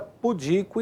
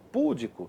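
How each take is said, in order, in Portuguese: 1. A sílaba tônica é a penúltima. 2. A sílaba tônica é a antepenúltima. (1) "essas palavras possuem a pronúncia correta" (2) "normalmente transformadas em proparoxítonas... Errado"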